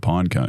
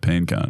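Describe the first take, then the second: First: The first word rhymes with 'fine'. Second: The first word rhymes with 'seen'. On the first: The speaker calls it right. "if you were talking about a pine cone" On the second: The speaker calls it wrong. "you wouldn't say a peen cone"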